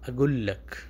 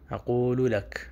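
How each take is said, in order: First: It has a g sound and shortened syllables. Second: It has a q sound and full syllables. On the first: This is the everyday colloquial form. "लेकिन वो कैसे बोलते हैं?" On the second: This is the formal standard Arabic form. "असल ये लफ्ज़ है अक़ूलु लक"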